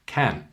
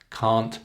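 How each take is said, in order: First: "Can" short, a as in cat; short vowel. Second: "Can't" said cahnt, long. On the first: Teacher demonstrates length difference, short "Can". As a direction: keep "Can" brief and front. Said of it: "Can, short". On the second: Teacher demonstrates length difference, long "Can't". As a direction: stretch "Can't" with an open ah. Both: Shown as a demonstration.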